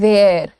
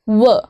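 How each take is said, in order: First: The word is said like 'wear', with a long vowel. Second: The word is said like 'wuh', with a short vowel. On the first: The speaker calls it wrong. "इसको ना वेयर नहीं बोला जाता, this is not वेयर" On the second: The speaker calls it right. "This is व, व simple"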